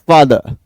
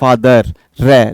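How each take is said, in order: First: The word ends on a vowel sound. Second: The word ends with an audible r sound. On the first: The speaker calls it right. "अंत में ए की ध्वनि दे रहा है" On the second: The speaker calls it wrong. "अपन बोलते हैं फादर रे, लेकिन ये गलत है"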